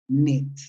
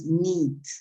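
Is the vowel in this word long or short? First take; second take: short; long. First: The vowel is short. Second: The vowel is long. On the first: The speaker calls it right. "need with a short sound. Una I corta" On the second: The speaker calls it wrong. "no es need"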